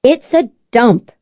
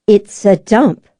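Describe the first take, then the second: First: A lightly voiced sister declaring it's a dump with a firm fall; firm declaration. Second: A lightly voiced sister repeating it slowly, each word level; flat repeat. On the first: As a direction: state it as a verdict, lightly voiced. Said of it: "Elizabeth declared". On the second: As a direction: say it again, unmoved and slow. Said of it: "Elizabeth repeated flatly". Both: A narrator's reading.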